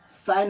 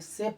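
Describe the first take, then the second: First: The vowel sounds like 'eye'. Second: The vowel sounds like 'ay'. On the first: The speaker calls it wrong. "साय नहीं पढ़ना है" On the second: The speaker calls it right. "इस word को हमें से पढ़ना है"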